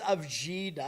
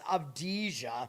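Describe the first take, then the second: First: The middle sounds come out as jee-da. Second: The middle sounds come out as dee-ja. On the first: The speaker calls it wrong. "I thought it was Avjida" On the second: The speaker calls it right. "It's Avdija"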